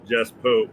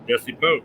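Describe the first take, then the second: First: The first name has one syllable, final e silent. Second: The first name has two syllables, final e sounded. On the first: "His name is actually J E S S E" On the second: "all the announcers were calling him Jesse"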